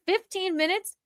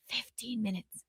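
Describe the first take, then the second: First: High, rising disbelief; incredulous question. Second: Very quiet, falling repeat; hushed disbelief. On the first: Host reacting to the fifteen minutes, incredulous. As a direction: lift it up into an astonished question. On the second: Host repeating the fifteen minutes, hushed. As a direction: drop it to an under-breath echo. Same words repeated under the breath. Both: Real, not acted.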